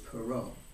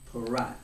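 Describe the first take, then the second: First: The name is pronounced the French way. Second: The name is pronounced the American way. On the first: This is how the ancestors said it. "But back before great grandfather, it was Perot. It was French" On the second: This is how the family says it in America today. "we in America, my father, uh, pronounce it uh, as uh"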